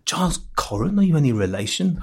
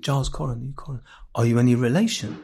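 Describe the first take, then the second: First: Retold again in a light old Jewish London accent, first word lifted; old Jewish London accent, asking the young critic if he's family. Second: Lightly imitated old Jewish couple from Islington, Jewish London accent; a hint of an elderly Jewish London accent, asking gently; old Jewish London accent, quietly quoting the couple in the chip shop. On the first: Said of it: "it's a Coren accent". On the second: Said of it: "sorry for doing the accents".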